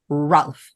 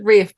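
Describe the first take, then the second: First: The name is said with an L, like 'Ralf'. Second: The name rhymes with 'safe', with no L sound. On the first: This is how the name is spelled. The speaker calls it right. "it's spelled Ralph. That is fucking Ralph" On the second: This is how the actor himself says it. The speaker calls it wrong. "I think he pronounced it Rafe"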